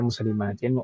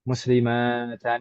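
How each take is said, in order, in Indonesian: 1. Kata ini berakhiran bunyi 'in'. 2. Kata ini berakhiran bunyi 'an'. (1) "fathahnya diwakili kasroh. Jadinya muslimatin" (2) "kita nggak pernah mendengar misalkan mu'minatan, muslimatan, nggak nggak mungkin seperti itu"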